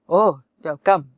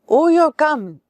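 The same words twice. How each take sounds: First: It is said coldly, without any warmth. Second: It is said warmly, as if smiling. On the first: The visitor is not welcome. "That means you are not welcome" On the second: The visitor is welcome. "with a smile"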